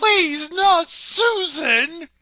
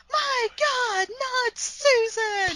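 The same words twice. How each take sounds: First: High, loud, slow melodramatic wail; wailing cry. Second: High, slow, drawn-out anguished cry; wailing yell. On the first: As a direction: overact the grief, draw it out. Echoes the wailing quote. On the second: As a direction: wail it like a horror heroine. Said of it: "She just stands there and yells". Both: Retold or imitated.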